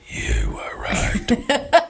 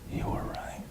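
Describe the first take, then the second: First: It is said at a louder volume. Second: It is said at a quieter volume.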